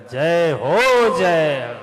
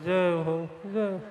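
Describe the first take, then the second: First: It is said in a happy, joyful voice. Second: It is said in a sad, dull voice. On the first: The speaker wants happiness, peace and strength. The speaker calls it right. "प्रसन्नता से बोलेगा, मगन होकर बोलेगा" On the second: The speaker will gather sorrow and trouble in life. The speaker calls it wrong. "उदास होके बोलेगा"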